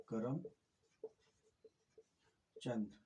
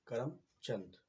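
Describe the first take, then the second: First: Karamchand said very slowly as two parts, करम then चंद; slowly in two syllables. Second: Said in the usual way. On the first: Shown as a demonstration. Teacher to students, slowly splitting Karamchand into two syllables. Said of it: "इसको हमने दो बार करके बोला". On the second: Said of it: "पढ़ने में बोलने में दिखाई दे रहा है करमचंद".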